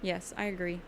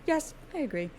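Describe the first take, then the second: First: Said in the usual way. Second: "Yes, I agree" said again much higher, in a put-on voice; high silly voice. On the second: Shown as a demonstration. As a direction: play it as a high comic echo. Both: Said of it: "repeated in silly voice".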